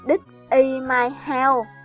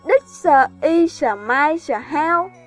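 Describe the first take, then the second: First: The final consonants are left off the words. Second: Extra consonant sounds are added all over. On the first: "người Việt mình thường quên phụ âm cuối" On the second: "hoặc thêm phụ âm tùm lum"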